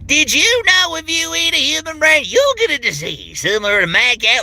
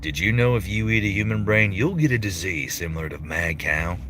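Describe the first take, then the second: First: It is said in an over-the-top Southern voice. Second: It is said in a plain, normal voice.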